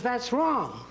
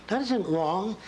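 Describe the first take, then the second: First: Imitating a teacher, pitched higher; mock teacher snapping at a child's drawing; teacher's correction. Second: Said in the usual way. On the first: Lecturer imitates a teacher rejecting a child's drawing, pitched higher. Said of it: "The teacher says".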